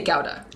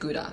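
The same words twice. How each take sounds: First: The word is said with a Dutch pronunciation. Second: The word is said with an American pronunciation. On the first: "The Dutch people say Gouda" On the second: "So Americans pronounce It Gouda"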